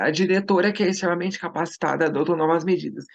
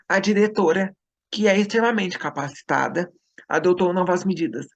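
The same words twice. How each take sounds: First: The sentence runs on without pauses. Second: Pauses set off the middle clause.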